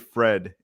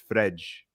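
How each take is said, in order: First: The name ends with a plain d sound. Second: The name ends with a j-like sound. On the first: The speaker calls it wrong. "we don't say Fred" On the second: The speaker calls it right. "It's Fredge. That's how you pronounce it in Portuguese"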